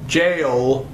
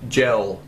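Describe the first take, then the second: First: The vowel is long, rhyming with 'sail'. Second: The vowel is short, rhyming with 'bell'. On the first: The speaker calls it right. "the word, people, is jail" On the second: The speaker calls it wrong. "as gel"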